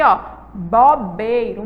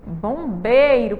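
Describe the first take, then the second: First: "bobeiro" said slowly with no nasal "bom"; slow oral "bobeiro"; wrong oral bobeiro. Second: "Bombeiro" drawn out slowly with a humming "bom"; slow nasal "Bombeiro". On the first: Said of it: "a palavra correta é o quê". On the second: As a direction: stretch "Bombeiro", nasal first syllable. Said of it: "aí falta o quê". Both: Shown as a demonstration.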